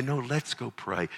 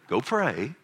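First: Softer, falling invitation to GO PRAY; gently include the child; acted kindly dad suggestion; inviting father. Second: Acted curt command to GO PRAY; mock bossy dad instruction; dismissive parental order. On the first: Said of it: "You say". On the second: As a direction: send the child off to do it. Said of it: "you don't go say".

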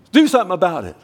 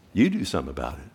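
First: High, loud pleading order; hammed-up exasperated insistence; indignant demand. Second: Low, measured comeback; unruffled voice from above; God's calm retort. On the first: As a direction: demand action from God, pitched up. Acting demand that God intervene. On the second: Acted. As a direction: turn the demand back, pitched way down. Acting God's answer turning it back.

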